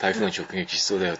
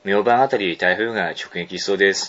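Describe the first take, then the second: First: Low, soft, quick throwaway; casual aside. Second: Measured, low read-aloud; mail reading. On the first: Retold or imitated. Host imitating a listener's casual typhoon aside, offhand. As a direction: slip it in offhand, under your speech. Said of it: "さりげなくね". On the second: Acted. Host reading a listener's closing line, even mail reading. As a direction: read the letter's sign-off evenly.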